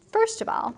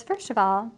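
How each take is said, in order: First: High-pitched acted opening line; Lucentio. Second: Lightly voiced servant, near normal pitch; Tranio. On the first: Suitor starting to address the traveler, high acted voice. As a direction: pipe it up high in character. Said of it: "And Lucentio says". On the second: Servant starting to address the traveler, lightly acted voice. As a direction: restart the acted line in an everyday register. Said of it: "Tranio says".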